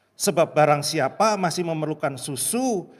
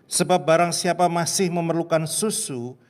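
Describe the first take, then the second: No difference in how they are said.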